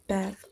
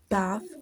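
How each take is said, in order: First: It is said with an American accent. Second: It is said with a British accent. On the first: "while American accent it's" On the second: "For the British English accent, it's"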